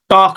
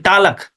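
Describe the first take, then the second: First: The l is silent. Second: The l is pronounced with an extra vowel. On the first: The speaker calls it right. "in place of" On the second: The speaker calls it wrong. "we say talak"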